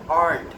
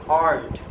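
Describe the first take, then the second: Both takes have the same delivery.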